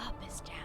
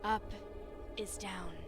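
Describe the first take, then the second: First: It is spoken in a whisper. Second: It is spoken in a normal voice. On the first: The speaker calls it wrong. "I was whispering" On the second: The speaker calls it right. "I shouldn't be whispering"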